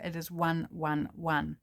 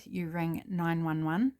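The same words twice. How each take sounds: First: "one one one" said slowly, each "one" separate; slow corrected number. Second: "nine one one" said slowly, each number spaced; slow wrong number. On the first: Correcting herself for viewers, slowly says "one one one". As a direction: lay out "one one one" slowly and carefully. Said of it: "In New Zealand here". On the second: Explaining New Zealand's emergency number, slowly says "nine one one". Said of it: "Uh, no, sorry, you don't". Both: Shown as a demonstration.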